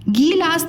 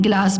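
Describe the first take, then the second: First: गिलास said gee-laas, high long gee; गलत लंबी ई. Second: गिलास with short gi, much lower; सही छोटी इ. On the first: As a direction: stretch the start of गिलास. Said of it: "गिलास नहीं बोलते हैं". (गिलास को गीलास जैसा) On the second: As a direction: keep गि quick in गिलास. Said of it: "गिलास बोलते हैं". (गिलास में गि छोटा) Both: Shown as a demonstration.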